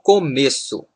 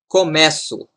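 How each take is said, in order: First: The middle vowel is a closed e sound. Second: The middle vowel is an open e sound. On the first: It is the noun, the beginning. "here the sound is close" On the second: It is the verb form, I begin. "Here we pronounce E, open, like in pet"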